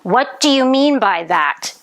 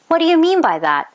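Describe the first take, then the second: First: Said angrily, with every word stressed separately. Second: Said softly and puzzled, with words run together. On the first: The speaker is offended by what was said. "Did I look angry? ... I stressed each word" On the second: The speaker didn't understand and needs an explanation. "a confused look, a soft voice"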